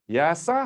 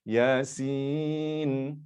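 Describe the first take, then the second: First: The word ends with the syllable 'sa'. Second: The word ends with the syllable 'sin'. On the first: The letters are read as ordinary syllables. The speaker calls it wrong. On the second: The letters are read by their names. The speaker calls it right. "Baru betul"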